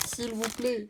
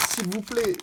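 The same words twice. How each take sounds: First: Small, high, hushed plea; soft pleading. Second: High-pitched plea at normal volume; pleading. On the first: Player hoping for a dragon blanc alternatif, soft high pleading. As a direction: beg softly in a high little voice. Repeats the plea more softly. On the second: Player hoping for a dragon blanc alternatif, high pleading. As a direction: beg for luck in a high voice. Begging luck for a rare card. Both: Real, not acted.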